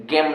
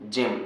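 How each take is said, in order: First: गेम starting with hard G; mispronounced hard G. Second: जेम starting with a J sound; soft G. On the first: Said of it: "गेम नहीं". (गेम, शुरू में ग की आवाज़) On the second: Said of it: "इसको जेम पढ़ेंगे". (जेम, शुरू में ज की आवाज़) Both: Shown as a demonstration.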